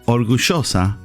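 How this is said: The double L sounds almost like sh. "People in Argentina, for example, they will say orgullosa, almost like an S H sound"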